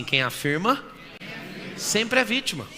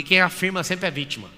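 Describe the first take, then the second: First: Prompting the audience. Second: Said in the usual way. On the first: Shown as a demonstration. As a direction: lead a call-and-repeat in two chunks. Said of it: "Vamos falar com a boquinha? Fala assim". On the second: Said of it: "Vamos falar com a boquinha?".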